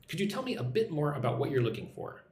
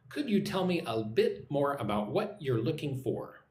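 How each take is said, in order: First: Said in the usual way. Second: Measured, carefully spaced question; repeat-after-me model. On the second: Shown as a demonstration. Teacher giving learners a question to repeat, measured and careful. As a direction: model the question unhurriedly, word by word. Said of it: "Listen and repeat".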